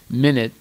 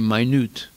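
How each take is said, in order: First: The stress is on the first syllable. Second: The stress is on the second syllable. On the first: A short period of time. The speaker calls it right. "instead of saying minute" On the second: Something very small. The speaker calls it wrong. "they say minute. But they don't mean minute, something small"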